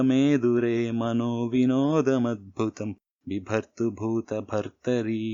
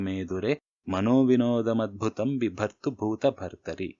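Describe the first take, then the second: First: It is recited slower with a steady metrical rhythm. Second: It is recited quickly without a set beat. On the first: "రిథంలో చెప్తానన్నాను" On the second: "fast పేస్లో చెప్పేస్తాను"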